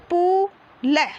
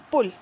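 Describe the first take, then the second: First: "पु ल" split apart, पु stretched long; syllable by syllable. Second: Said in the usual way. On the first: Shown as a demonstration. Teacher shows pupils how to read, syllable by syllable. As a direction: sound out पु, pause, then ल. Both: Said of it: "ऐसे पढ़ना आपको".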